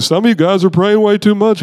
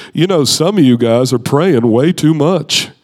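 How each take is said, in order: First: Said in the usual way. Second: Measured preacher impression in an altered voice; Rick Joyner. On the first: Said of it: "but he was like". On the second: Shown as a demonstration. Preacher telling the crowd about praying, deliberate impression. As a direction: put on an older colleague's deliberate delivery. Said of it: "do my best Rick Joyner impression".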